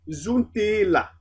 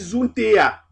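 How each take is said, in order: First: An L sound links the two vowels. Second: The two vowels meet with no consonant between. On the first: The speaker calls it right. "on préférerait dire zuntela" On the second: The speaker calls it wrong. "la prononciation n'est pas coulante"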